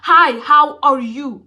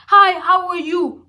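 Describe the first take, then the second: First: It ends on a low pitch, with conviction. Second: It ends on a high pitch, sounding unsure.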